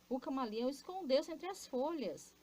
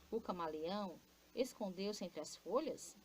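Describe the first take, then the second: First: It is said as an exclamation. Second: It is said as a question.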